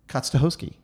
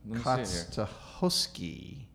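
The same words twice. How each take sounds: First: The name is said at a quicker pace. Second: The name is said at a slower pace. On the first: "If you say it faster, though, how would you say that more quickly?" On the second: "Is that right?"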